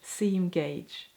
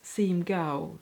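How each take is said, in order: First: The second word sounds like 'gauge'. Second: The second word sounds like 'go'. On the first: The speaker calls it right. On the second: The speaker calls it wrong.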